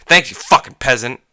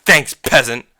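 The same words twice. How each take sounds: First: Sneer-like thanks with the swear thrown in; imitated customer insult. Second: Two punched words, a mocking thanks; corrected customer jibe. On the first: Speaker shows manager how customer insulted them, mocking. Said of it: "this is how he said it". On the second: Speaker corrects how customer said it, mocking. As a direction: imitate the customer, punched and a bit louder. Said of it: "No, he didn't say fucking".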